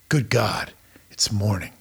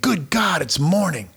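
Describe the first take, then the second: First: It is said with tired, reluctant dread. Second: It is said with glad, eager energy. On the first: The day ahead is dreaded. The speaker calls it wrong. "Instead of saying" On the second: The day ahead is welcome. The speaker calls it right. "What would happen if you found your purpose and lived it out?"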